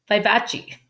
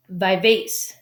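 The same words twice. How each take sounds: First: Vivace said as "vy-VAH-chee"; corrected vivace. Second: Vivace said as "vy-VACE"; mispronounced vivace. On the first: Reader correcting the Italian term, vivace with a "chee" ending. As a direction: end vivace on a clear "chee". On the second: Reader stumbling on an Italian term, vivace misread as "vy-vace". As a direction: end vivace like "vase", no "chee". First misread, then corrected. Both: Real, not acted.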